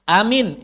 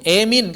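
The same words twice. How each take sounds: First: Said in the usual way. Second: Emin with the first a leaned to e; imalah emin. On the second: Shown as a demonstration. Teacher shows amin said as emin. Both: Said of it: "emin kadang-kadang juga".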